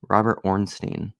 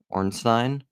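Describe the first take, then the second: First: Ornstein said with a long EE, "ORN-steen"; name ending in "-steen". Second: Ornstein said with an EYE sound, "ORN-stine"; name ending in "-stine". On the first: Says surname two different ways. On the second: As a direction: end Ornstein to rhyme with "fine". Second take of the surname. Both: Real, not acted.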